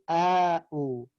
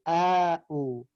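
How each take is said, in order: First: A long vowel separates the two glottal stops. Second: A long vowel separates the two glottal stops.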